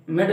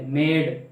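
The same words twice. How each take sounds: First: "मेड" cut short with a quick vowel; clipped short vowel. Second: "मेड" with the vowel held long. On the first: Teacher showing what is not said, "मेड" with vowel cut short. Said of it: "मेड नहीं बोलते". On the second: Teacher correcting the short version, "मेड" with vowel pulled long. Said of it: "खींच के थोड़ा बोलते हैं". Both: Shown as a demonstration.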